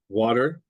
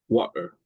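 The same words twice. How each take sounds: First: The middle T is a quick flap. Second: The middle T is a glottal stop. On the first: "That's what they call um, a flap" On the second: "like a, the glottal stop"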